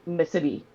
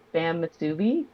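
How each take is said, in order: First: Musubi said muh-SIH-bee, quick and light; local musubi. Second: Said in the usual way. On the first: Shown as a demonstration. Mother copying how her daughter says musubi. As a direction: say musubi the way island kids do. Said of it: "but she pronounced it". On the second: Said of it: "is how I pronounce it".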